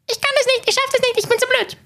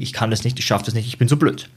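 First: It is said in a Mickey Mouse voice. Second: It is said in a normal voice.

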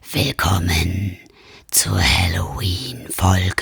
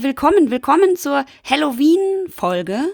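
First: It is said in a creepy, spooky voice. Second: It is said in a plain, normal voice.

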